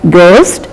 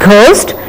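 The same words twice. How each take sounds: First: The g is said lightly without a breathy puff. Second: The g is said with a strong breathy puff. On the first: The speaker calls it right. "We have to say it in a plain and light manner" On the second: The speaker calls it wrong. "it is not ghost"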